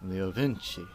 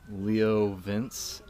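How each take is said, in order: First: The name ends with an 'ee' vowel. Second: The name ends without a final vowel. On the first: The speaker calls it right. "you're saying it wrong. It's Leo Vinci" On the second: The speaker calls it wrong. "I thought it was Leo Vince"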